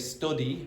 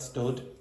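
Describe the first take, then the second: First: The final vowel sound is clearly pronounced. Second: The final vowel sound is dropped entirely. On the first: The speaker calls it right. "So you should say study" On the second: The speaker calls it wrong. "not stud"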